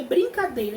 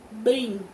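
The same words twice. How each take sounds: First: Said in the usual way. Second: "Brincadeira" in four separate beats, long pauses between; syllable by syllable. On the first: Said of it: "Então, eu vou contar". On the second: Shown as a demonstration. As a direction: break "Brincadeira" into brin, ca, dei, ra. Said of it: "quantas vezes eu abro a boca".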